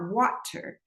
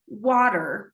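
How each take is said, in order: First: The middle T is pronounced as a clear T. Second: The middle T sounds like a soft D. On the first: "and not water" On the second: "with a flap that sounds more like a D"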